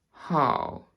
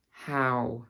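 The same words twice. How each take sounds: First: 'how' with an RP vowel; RP accent. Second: Said in the usual way. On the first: Shown as a demonstration. Teacher contrasting RP with her own accent, RP accent. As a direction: RP accent, placed on the bottom lip. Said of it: "show you the difference between". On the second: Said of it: "my own accent and the R P".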